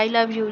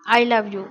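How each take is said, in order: First: It is said quickly and carelessly. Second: It is said with a slightly annoyed tone. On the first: She only wants to get it over with. "जल्दी से बोल गई।" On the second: She is still a little angry. "अभी भी थोड़ा गुस्सा है"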